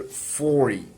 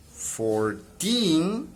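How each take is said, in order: First: "forty" said as FOR-ty, falling; stress at the start. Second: Put-on "fourteen" said as four-TEEN, rising at the end; "fourteen" with a rising last syllable; stress at the end. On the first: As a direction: let "forty" drop after "for". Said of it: "it's decreasing the tone of voice". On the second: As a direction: let "fourteen" climb on "teen". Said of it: "rise of the voice here". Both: Shown as a demonstration.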